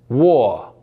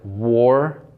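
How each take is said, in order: First: A consonant sound is dropped. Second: All the consonant sounds are pronounced. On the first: "when dropping these sounds becomes" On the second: "found in words like"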